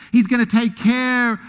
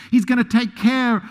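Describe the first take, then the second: No difference in how they are said.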